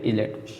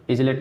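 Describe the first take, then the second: First: Said in the usual way. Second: "इजलेट" with the silent S sounded as z; गलत उच्चारण. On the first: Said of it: "इसलिए silent है". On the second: Shown as a demonstration. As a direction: voice a z before the L in "इजलेट". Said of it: "नहीं पड़ेगा". ("इजलेट" में ज की आवाज़ जोड़कर)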